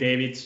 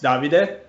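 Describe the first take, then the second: First: The name is said with English pronunciation. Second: The name is said with Italian pronunciation. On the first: "I don't mind like people calling me David" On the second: "if you want to pronounce it like in Italian"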